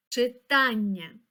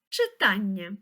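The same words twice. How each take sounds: First: Читання slow, leaning hard on the second syllable, чиТАННЯ; stressed word. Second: Said in the usual way. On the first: Shown as a demonstration. Teacher shows a pupil where the stress falls in Читання. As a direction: stretch out Читання and mark its stress. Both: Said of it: "Поставимо наголос у цьому слові".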